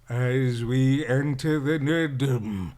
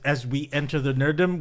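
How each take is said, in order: First: It is said in a spooky voice. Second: It is said in a normal voice.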